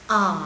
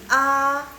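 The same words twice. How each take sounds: First: The pitch dips down, then rises again. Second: The pitch stays high and level. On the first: "A nada ketiga" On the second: "A nada satu"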